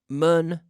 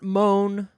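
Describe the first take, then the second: First: The vowel is a short u sound. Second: The vowel is an oh sound. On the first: "Not mun" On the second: "Not moan"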